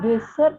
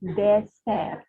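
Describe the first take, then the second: First: The first vowel is not an open e. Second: The first vowel is an open e. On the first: The speaker calls it wrong. "bukan dessert" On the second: The speaker calls it right. "E kita lafalkan E"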